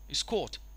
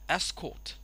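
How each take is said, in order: First: The stress is on the second syllable. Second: The stress is on the first syllable. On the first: "to the second syllable" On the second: "the stress of course goes from the first syllable"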